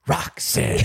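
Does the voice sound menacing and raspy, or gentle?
menacing, raspy. It sounds menacing and raspy, like a smoker.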